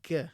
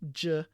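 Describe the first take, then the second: First: It begins with a hard g sound. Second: It begins with a soft j sound. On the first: The speaker calls it right. "G has the same pronunciation as the G sound in English word get" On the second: The speaker calls it wrong. "not J"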